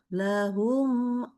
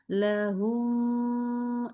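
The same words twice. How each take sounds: First: The final syllable is said quickly and crisply. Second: The final syllable is held too long. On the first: The speaker calls it right. "nah cepet" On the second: The speaker calls it wrong. "nggak boleh ya humnya kelamaan"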